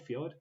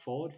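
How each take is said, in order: First: "Fjord" with a y-glide after f; trial pronunciation. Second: "Ford" without the y-glide; trial pronunciation. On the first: Unsure host checking how to say it, trial pronunciation "Fjord". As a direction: ask "Fjord" as fyord, rising. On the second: Unsure host checking how to say it, trial pronunciation "Ford". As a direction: ask "Ford" as one syllable, no y sound. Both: Shown as a demonstration. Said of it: "is that how you say that".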